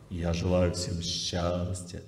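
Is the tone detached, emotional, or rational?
rational. It is said in a thinking, rational manner. The words come from thought. "Это звук мыслей"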